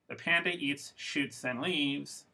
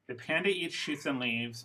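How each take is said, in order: First: There are pauses after 'eats' and 'shoots'. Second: It flows as one phrase without pauses. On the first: The panda eats, fires a gun, then departs. "means the panda has a gun and likes to shoot people" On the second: The panda eats bamboo shoots and leaves. "means the panda bear eats bamboo for food"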